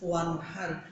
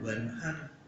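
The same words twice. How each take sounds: First: The w is said as the Arabic letter waw. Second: The w is said like Javanese 'waskom'. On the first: The speaker calls it right. "Kalau dulu mim nun wawu, ya harus wa" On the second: The speaker calls it wrong. "tidak wanhar"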